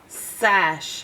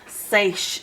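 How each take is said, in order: First: The vowel is a short 'a' sound. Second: The vowel is a long 'ay' sound. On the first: The speaker calls it right. "It's closed in now, makes its ass sound" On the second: The speaker calls it wrong. "it would be open and it would make its A sound"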